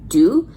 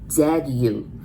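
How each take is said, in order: First: The syllable starts with a d sound. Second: The syllable starts with a z sound. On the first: The speaker calls it wrong. "if you would want to pronounce D U" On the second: The speaker calls it right. "but you really pronounce like Z"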